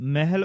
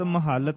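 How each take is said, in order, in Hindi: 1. l ध्वनि छोटी और एकल होती है। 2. l ध्वनि लंबी खिंचती है और दोहरी होती है। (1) "ਪੰਜਾਬੀ ਲਹਿਜੇ ਵਿੱਚ ਪਦ ਮਹੱਲ ਅਕਸਰ ਅਧਿਕ ਤੋਂ ਬਿਨਾਂ ਮਹਿਲ ਉਚਾਰਨ ਹੁੰਦਾ ਹੈ" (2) "ਅਧਿਕ ਵਾਲਾ ਅਰਥਾਤ ਮਹੱਲ"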